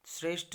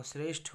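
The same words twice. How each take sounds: First: श्रेष्ठ ending in unaspirated ट, pitched higher; wrong pronunciation. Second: श्रेष्ठ ending in aspirated ठ; correct pronunciation. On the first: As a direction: say श्रेष्ठ as "shresht". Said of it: "नहीं होगा". (श्रेष्ठ के अंत में ट बोलें) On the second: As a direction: say श्रेष्ठ as "shreshth", with a puff. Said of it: "होगा". (श्रेष्ठ के अंत में महाप्राण ठ बोलें) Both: Shown as a demonstration.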